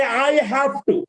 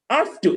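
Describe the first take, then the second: First: "I have to" in full, separate words; form to avoid. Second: "Have to" squeezed into "af-tuh"; reduced form. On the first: Teacher warning against it, form to avoid. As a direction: sound "have" and "to" each fully. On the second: Teacher modelling for learners, reduced form. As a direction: say "Have to" as one quick weak word. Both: Shown as a demonstration. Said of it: "Never say".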